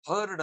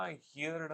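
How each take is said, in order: First: ಹರ್ಡ್ with one "er" vowel, no "ee"; ಹರ್ಡ್ pronounced "hurd", without the sound of "hear"; correct "heard". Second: ಹಿಯರ್ಡ್ with an "ee-ya" vowel, like "hear" plus d; ಹಿಯರ್ಡ್ mistakenly built on the sound of "hear"; mispronounced "heard". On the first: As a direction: say ಹರ್ಡ್ as "herd". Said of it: "ಹರ್ಡ್ ಅಂತ pronounce ಮಾಡ್ಬೇಕು". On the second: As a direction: say ಹಿಯರ್ಡ್ as "hee-yard". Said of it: "ತಪ್ಪು". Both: Shown as a demonstration.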